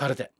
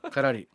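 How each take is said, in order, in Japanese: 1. 普通の日本語の発音です。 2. 英語風の発音です。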